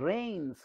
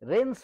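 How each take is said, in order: First: The vowel is a gliding 'ay' sound. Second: The vowel is a short plain 'e' sound. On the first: The speaker calls it right. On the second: The speaker calls it wrong.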